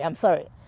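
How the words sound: It is tossed off casually and dismissively. The apology is given in passing while leaving. The speaker calls it wrong. "throws that I'm sorry from across the room"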